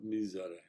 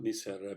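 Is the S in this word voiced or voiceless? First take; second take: voiced; voiceless. First: The S is voiced, like a buzz. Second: The S is voiceless, like a hiss. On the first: The speaker calls it right. "a voiced S" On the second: The speaker calls it wrong. "not misere"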